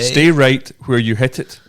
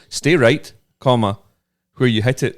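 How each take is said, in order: First: It is said without a pause. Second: It has a pause after 'stay right'.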